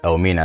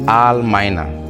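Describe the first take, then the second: First: The name starts with an 'el' sound. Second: The name starts with an 'ahl' sound. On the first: This is how the local people said the name. "the locals pronouncing it ... mention it Elmina" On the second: This is the original foreign form of the name. "they named this place Al Mina"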